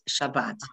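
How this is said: The word ends with a t sound. This is the modern Hebrew pronunciation. The speaker calls it right. "It's Shabbat"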